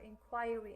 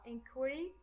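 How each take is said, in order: First: It is said in a British pronunciation. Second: It is said in a non-British pronunciation.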